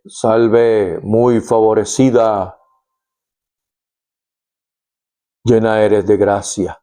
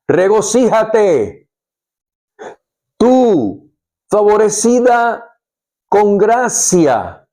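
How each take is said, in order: First: Lower, expressionless greeting like a bouncer; flat bouncer voice. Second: Higher, slow, ringing proclamation; joyful exclamation. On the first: Retold or imitated. Angel greeting Mary as a bored bouncer, flat and lower. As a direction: say it deadpan, like a guard at a door. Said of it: "así como, como un bouncer, como un guardaespaldas". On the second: Acted. Angel Gabriel bursting in on Mary, exclaiming slowly and higher. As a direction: announce it with joy, drawn out. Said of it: "Gabriel le exclamó".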